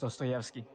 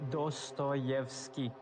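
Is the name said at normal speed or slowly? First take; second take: normal; slowly. First: The name is said at normal speed. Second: The name is said slowly and carefully.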